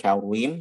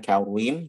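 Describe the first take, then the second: First: The r is said with rounded lips, like u. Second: The same.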